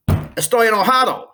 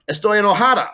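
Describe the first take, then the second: First: "Estoy enojado" with the final o of "enojado" clearly marked; masculine ending stressed. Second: "Estoy enojada" with the final a of "enojada" clearly marked; feminine ending stressed. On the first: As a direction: stress the o in "enojado", high and louder. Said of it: "if you were a guy". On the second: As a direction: stress the a in "enojada", high and louder. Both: Shown as a demonstration.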